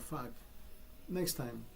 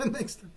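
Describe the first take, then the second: First: Said in the usual way. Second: Next time, said through a rueful laugh, higher; a rueful chuckle on next time. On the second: Real, not acted. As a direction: laugh it out bitterly. Repeated with a laugh.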